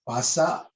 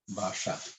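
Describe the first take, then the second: First: It is pronounced the Newar way. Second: It is pronounced the original language's way. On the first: "This is the Newar way of speaking bhasa" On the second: "The sound is different"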